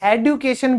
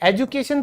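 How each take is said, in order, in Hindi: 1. पहले स्वर के बाद का व्यंजन d है। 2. पहले स्वर के बाद का व्यंजन j है। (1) "एडुकेशन भी कई लोग बोलते हैं, ये ओल्ड इंग्लिश है" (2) "एजुकेशन तो है ही"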